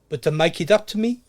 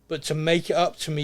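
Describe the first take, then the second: First: It is said in a South African accent. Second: It is said in the speaker's normal accent.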